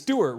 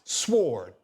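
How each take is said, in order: First: The name is said with two syllables, 'Stew-art'. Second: The name is said as one syllable, 'sword'. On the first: The speaker calls it wrong. "But it's not pronounced that way" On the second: The speaker calls it right. "It's pronounced sword"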